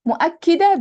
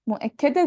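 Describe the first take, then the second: First: مؤكدة said higher and louder as a whole word; emphatic stress. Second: Said in the usual way. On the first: Shown as a demonstration. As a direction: hit مؤكدة hard to show emphasis. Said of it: "the thing stressing". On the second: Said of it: "the thing being stressed".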